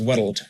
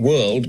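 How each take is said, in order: First: "world" in two beats, like wor-uld; extra Scottish syllable. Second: Said in the usual way. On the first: Shown as a demonstration. Coach showing how the word changes, two-syllable Scottish "world". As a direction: add a syllable before the L in "world". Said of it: "world becomes world". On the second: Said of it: "you'll have an extra syllable".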